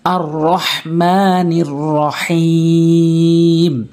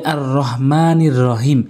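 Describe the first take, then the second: First: "আর রহমানির রহিম" with held vowels and throaty h; correct recitation. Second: "আর রহমানির রহিম" said quickly with plain h; everyday unchanted "আর রহমানির রহিম", light h; wrong recitation demo. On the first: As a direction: chant "আর রহমানির রহিম", stretching the last vowel long. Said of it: "বলতে হবে". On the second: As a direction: rattle off "আর রহমানির রহিম" without long vowels. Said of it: "এরকম বললে হবে না". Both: Shown as a demonstration.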